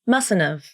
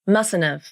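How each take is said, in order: Both takes have the same delivery.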